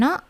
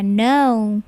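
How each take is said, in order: First: "no" cut short as "noh"; short "no" with no glide; wrong pure O. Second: "no" gliding to "nou"; long "no", ending on a U; English diphthong O. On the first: Teacher showing students wrong no, short pure vowel. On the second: Teacher modelling no for students, gliding vowel. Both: Shown as a demonstration. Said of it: "bukan no ya".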